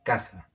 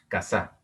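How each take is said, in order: First: Casa stressed on CA, falling; stress on first syllable. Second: Casa wrongly stressed on the last syllable, ca-SA; wrong final stress. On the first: Teacher correcting to what we say, casa stressed on CA. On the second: Teacher showing what we don't say, casa stressed on final SA. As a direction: push the stress onto SA in casa. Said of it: "No decimos". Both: Shown as a demonstration.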